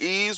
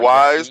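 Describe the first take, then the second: First: The name is said like 'ease', without a w. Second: The name is said like 'wise', with a w. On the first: "Remember Ease when we got Ease?" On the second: "some people pronounce it Wise"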